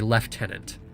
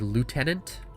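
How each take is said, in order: First: The word is said the Canadian way. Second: The word is said the American way. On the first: "the correct pronunciation ... is you're supposed to say lieutenant" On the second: "in the United States, um, they say lieutenant"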